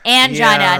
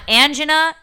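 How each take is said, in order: First: The word rhymes with vagina. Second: The word does not rhyme with vagina. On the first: The speaker calls it right. "the correct way to pronounce this word rhymes with vagina" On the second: The speaker calls it wrong. "not angina"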